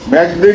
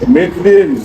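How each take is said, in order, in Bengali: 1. শব্দটি 'meg' দিয়ে শুরু, 'e' স্বরধ্বনি সহ। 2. শব্দটি 'mid' দিয়ে শুরু, 'i' স্বরধ্বনি সহ। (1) "মেঘদিন না"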